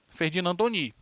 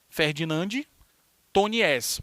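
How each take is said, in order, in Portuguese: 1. O sobrenome termina sem nenhum som de s. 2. O sobrenome é lido com som de s no final. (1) "mas se pronuncia Ferdinand Tony" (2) "escreve assim"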